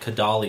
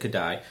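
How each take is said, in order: First: The name is said with an L sound. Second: The name is said without an L sound. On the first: The speaker calls it wrong. "Kodaly is what it looks like" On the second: The speaker calls it right. "but you pronounce it Kodai"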